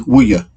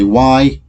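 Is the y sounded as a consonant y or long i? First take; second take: consonant y; long i. First: The y is sounded like the y in yes. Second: The y is sounded as a long i. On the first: The speaker calls it wrong. "We do not say" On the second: The speaker calls it right. "We say ... the sound of these is long I"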